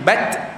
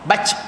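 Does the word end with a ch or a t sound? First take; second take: t; ch. First: The word ends with a t sound. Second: The word ends with a ch sound. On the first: The speaker calls it right. "jangan bac tapi bat" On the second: The speaker calls it wrong. "Dia bacaan jadi ca"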